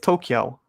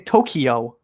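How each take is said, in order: First: The word is said with two syllables. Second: The word is said with three syllables. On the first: This is how most of the world says it. The speaker calls it right. "It's two syllables, not three" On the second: This is the American way of saying it. The speaker calls it wrong. "So Americans say Tokyo"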